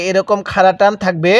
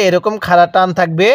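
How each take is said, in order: Both takes have the same delivery.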